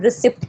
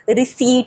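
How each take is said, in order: First: The p is sounded in the word. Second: The p is silent in the word. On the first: The speaker calls it wrong. "हम रिसिप्ट कहते हैं" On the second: The speaker calls it right. "Word रिसीट होता है"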